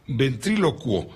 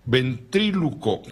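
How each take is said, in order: First: "ventrílocuo" said slowly, ending in -cuo with the u sounded; self-corrected pronunciation. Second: "ventríloco" said slowly, ending in plain -co without the u; stumbled mispronunciation. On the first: Host correcting a word just misread aloud, careful pronunciation. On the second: Host stumbling over a hard word while reading aloud, mispronounced. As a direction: trip slowly over "ventríloco", dropping the final u sound. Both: Real, not acted. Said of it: "perdón".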